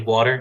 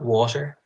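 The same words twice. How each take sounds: First: The t is soft, almost like a d. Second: The t is crisp and clearly pronounced. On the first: "They'll say water" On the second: "not water"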